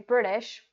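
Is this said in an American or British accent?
American. It is said in an American accent. "an American guy will say"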